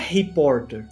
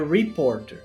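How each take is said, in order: First: It starts with a throaty Portuguese-style R sound. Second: It starts with an English R, American-style, final R pronounced. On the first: The speaker calls it wrong. "Só que não é reporter" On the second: The speaker calls it right. "é reporter"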